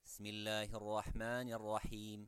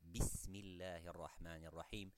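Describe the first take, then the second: First: The opening 'bi' sound is left out. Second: The opening 'bi' sound is clearly pronounced. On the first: The speaker calls it wrong. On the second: The speaker calls it right.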